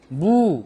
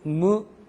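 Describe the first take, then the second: First: The vowel is a full, rounded u. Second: The vowel is halfway between eu and u. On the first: The speaker calls it wrong. "에스유라고 하면 우 발음이니까 어쨌든 수, 쭈, 구, 무 이렇게 발음할 거란 말입니다" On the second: The speaker calls it right. "완벽한 우가 아니고 의에서 진화해서 우로 가다 마는"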